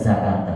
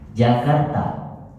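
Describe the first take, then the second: First: It begins with a z sound. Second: It begins with a j sound. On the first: The speaker calls it wrong. "Bukan Jakarta kan?" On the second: The speaker calls it right. "Jim pakai ja, bukan pakai za"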